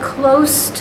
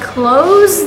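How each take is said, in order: First: The s is voiceless, a hissing s sound. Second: The s is voiced, a buzzing z sound. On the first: Near to something. "The S sounds like S" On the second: To shut something. "It becomes a Z"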